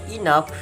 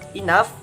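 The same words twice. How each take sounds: No difference in how they are said.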